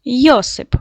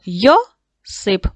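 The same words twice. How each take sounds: First: Said in the usual way. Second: Йосип stretched slowly into Йо-сип; syllable by syllable. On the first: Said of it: "Його треба записати в першу колонку". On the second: Shown as a demonstration. Teacher dividing the word into syllables for pupils, slow and drawn out. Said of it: "поділяючи на склади".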